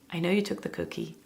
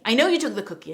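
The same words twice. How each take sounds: First: It is said in a calm, steady tone. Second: It is said in an angry, frustrated tone.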